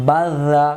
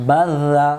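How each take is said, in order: Both takes have the same delivery.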